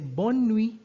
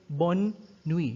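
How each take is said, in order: First: The two words run together as one word. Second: The two words are said separately with a break. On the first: The speaker calls it right. "it's as if it's one word" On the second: The speaker calls it wrong. "You don't separate it. You don't say bonne nuit"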